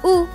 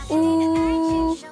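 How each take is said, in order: First: It is said with the fourth tone. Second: It is said with the first tone. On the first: "Lalu bentuk keempat" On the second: "bentuk pertama"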